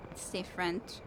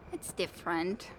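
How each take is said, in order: Both takes have the same delivery.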